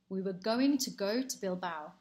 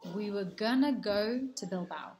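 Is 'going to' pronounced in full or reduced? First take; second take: full; reduced. First: 'Going to' is pronounced fully as two words. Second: 'Going to' is reduced to a weak 'gonna'.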